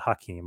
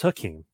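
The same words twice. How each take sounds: First: The name begins with an audible H sound. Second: The name begins with a vowel, no H sound. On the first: "but I just always call it Hakeem" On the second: "I know it's Hakeem"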